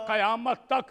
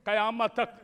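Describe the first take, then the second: No difference in how they are said.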